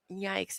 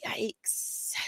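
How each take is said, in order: First: Said in the usual way. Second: Breathy whispered yikes. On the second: Real, not acted. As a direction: say yikes under your breath. Reacting to criminal charges.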